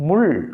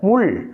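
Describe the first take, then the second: First: The final L sound is retroflex, tongue curled back. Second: The final L sound is retroflex, tongue curled back.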